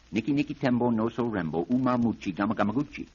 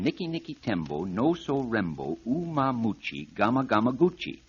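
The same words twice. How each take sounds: First: The name is said very quickly. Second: The name is said at an ordinary pace.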